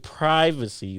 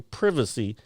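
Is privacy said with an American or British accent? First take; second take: American; British. First: It is said with an American accent. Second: It is said with a British accent. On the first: "We say privacy" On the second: "They say privacy because it's an I"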